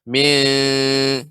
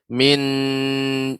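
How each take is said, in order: First: The n is hidden in an open nasal sound. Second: The n is fully closed against the palate. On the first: The speaker calls it right. "dia harus di tengah-tengah, tidak lengket ke langit-langit" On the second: The speaker calls it wrong. "nah ini lengket"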